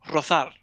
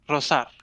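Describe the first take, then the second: First: The z is pronounced as a th sound. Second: The z is pronounced as an s sound. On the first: This is how it is said in Spain. "in Spain, at least, we use we use the th sound" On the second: This is how it is said in Latin America. "in Latin America, they don't use that. They they just use s"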